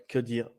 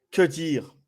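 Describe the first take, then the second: First: Fading to quiet. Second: Said in the usual way. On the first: Shown as a demonstration.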